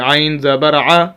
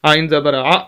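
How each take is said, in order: First: The vowel is released gently and smoothly. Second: The vowel is cut off with an abrupt jerk. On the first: The speaker calls it right. "बड़े आराम से" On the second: The speaker calls it wrong. "झटका दे के नहीं पढ़ना"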